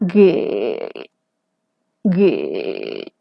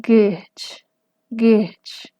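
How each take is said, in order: First: Gech dropped very low into creak; creaky low-tone gech; glottalized gech. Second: Gech in smooth modal voice, fading to breath. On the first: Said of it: "gech tiene la laringización". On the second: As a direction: say gech plainly, no creak. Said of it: "papel no tiene". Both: Shown as a demonstration.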